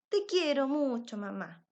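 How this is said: It is said with warm emotion.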